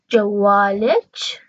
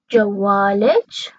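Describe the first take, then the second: No difference in how they are said.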